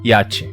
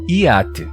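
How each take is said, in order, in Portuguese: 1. A palavra é dita em duas sílabas. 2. A palavra é dita em três sílabas. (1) "em duas sílabas" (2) "em três sílabas"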